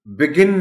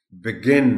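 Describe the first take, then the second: First: "بگن" as BEG-in, front syllable hit high; wrong stress. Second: "بگن" as bi-GIN, loud second syllable; correct stress. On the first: Teacher showing the stress to avoid, "بگن" as BEG-in. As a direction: say "بگن" loudly without stress on G. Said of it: "بگن نہیں بول سکتے". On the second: Teacher giving the right stress, "بگن" as bi-GIN. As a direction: hit the G in "بگن". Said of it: "stress جی پر ہے". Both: Shown as a demonstration.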